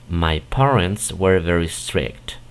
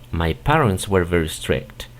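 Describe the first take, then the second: First: It is said at a slower pace. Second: It is said at a faster pace.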